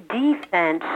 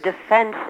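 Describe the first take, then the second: First: "defense" as "DEE-fense"; stressed DEE. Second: Said in the usual way. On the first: Shown as a demonstration. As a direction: hit a long "DEE" at the start of "defense". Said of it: "try to pronounce all the letters". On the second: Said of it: "instead of defense".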